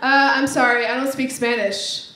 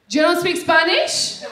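First: Said in the usual way. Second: Put-on slow, accented disbelief, sharply rising question; incredulous greeter. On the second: Greeter incredulous at her reply.

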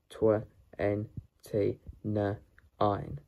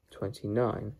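First: "twenty-nine" chopped into tw, en, t, n, ein; sounded out. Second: Said in the usual way. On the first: Shown as a demonstration. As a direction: say "twenty-nine" sound by sound, pausing between each. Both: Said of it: "How to pronounce twenty-nine?".

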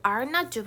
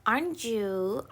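First: Are not you with each word said separately, not stressed; uncontracted, stiff. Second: Said in the usual way. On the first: Shown as a demonstration. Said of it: "이거 발음 자체도 이상해". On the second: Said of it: "aren't you는".

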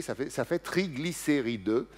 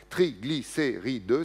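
First: Said in the usual way. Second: "Triglycéride" lent, chaque syllabe bien séparée; syllabes détachées. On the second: Shown as a demonstration. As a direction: articule "Triglycéride" syllabe par syllabe, lentement. ("Triglycéride" prononcé lentement, syllabe par syllabe) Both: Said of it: "cinq syllabes".

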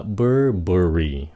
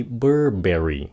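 First: "Burberry" as BUR-buh-ree; correct Burberry. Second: "Burberry" ending like berry, bur-BERRY; mispronounced Burberry. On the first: Teacher corrects the berry mistake, weak middle in "Burberry". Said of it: "không phải là berry". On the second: Teacher shows the fruit-like mistake, full berry in "Burberry". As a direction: rhyme "Burberry" with strawberry. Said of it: "không phải Burberry". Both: Shown as a demonstration.

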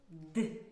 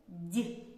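First: Д said as hard, unpalatalized "d"; short isolated Д with a dark "dy" release; firm hard Д, as in дармоїдів; hard consonant. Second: Д said as soft palatalized "d'"; isolated Д, palatalized with a short ee colour; soft consonant. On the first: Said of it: "називається твердим приголосним". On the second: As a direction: soften Д with the tongue raised, as in дятел. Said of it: "називається м'яким приголосним". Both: Shown as a demonstration.

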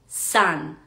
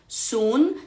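First: Sun said as /san/, U like an A; right U in sun. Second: Sun with a long Spanish U, /sun/; wrong U in sun. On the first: Teacher shows the right way to say sun. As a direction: open A sound in sun. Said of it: "sino que diríamos sun". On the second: Teacher shows the wrong way to say sun. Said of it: "no diríamos sun". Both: Shown as a demonstration.

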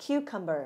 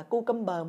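First: Cucumber modelled as "KYOO-kum-buh"; correct model pronunciation. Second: Cucumber read as Vietnamese "cu-kum-bơ"; mispronounced cucumber. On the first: Teacher models for learners to repeat, correct cucumber. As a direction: say cucumber in English, opening on "kyoo". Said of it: "Đọc với [name] ha". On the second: Teacher warns learners off a misreading, mispronounced cucumber. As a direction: say cucumber wrongly, opening on a plain "coo". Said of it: "dưa leo không đọc là cucumber". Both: Shown as a demonstration.

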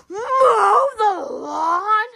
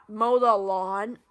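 First: Higher, slow, gasping disbelief at mow the lawn; shocked gasp. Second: Said in the usual way. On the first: Acted. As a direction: gasp and drag it out in horror. Kid repeats chore with a gasp.

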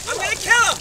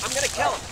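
First: Louder, higher furious threat; mock-furious yell; angry outburst. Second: Said in the usual way. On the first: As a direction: explode on kill. Mounting anger repeated.

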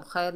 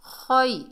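First: खैर with a thin, short "khair"; wrong pronunciation demo. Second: खै higher, thick and rounded like "khoy"; corrected heavy kha. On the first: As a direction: say खैर light, without rounding the kh. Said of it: "नहीं पढ़ना". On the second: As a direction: glide खै from a heavy kh into "i". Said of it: "खा को मोटा पढ़ना है". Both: Shown as a demonstration.

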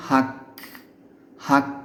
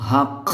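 First: হাক closed on a clean k stop; correct k ending. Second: হাক ending in a long, rasping kh; wrong kh ending. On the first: Teacher corrects the mistake for learners, correct k ending. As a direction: end হাক on k, without any kh rasp. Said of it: "এটাকে বলতে হবে". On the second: Teacher shows learners a big mistake, wrong kh ending. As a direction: turn the final k of হাক into a scraped kh. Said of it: "কাফের জায়গায় খ হয়ে গেল". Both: Shown as a demonstration.

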